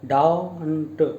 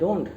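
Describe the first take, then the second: First: The word is said with a clear, non-nasal voice. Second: The word is said with a squeezed nasal voice. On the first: The speaker calls it right. "आपको कहना don't" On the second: The speaker calls it wrong. "कई बार students बोलते हैं don't नो, इतना नाक को squeeze करके नहीं बोलना है"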